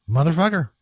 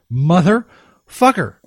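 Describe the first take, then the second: First: Said in the usual way. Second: Slow, stretched motherfucker; slow fed-up curse; drawn-out curse. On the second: Shown as a demonstration. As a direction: drag out the curse in exasperation. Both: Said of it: "repeats the curse".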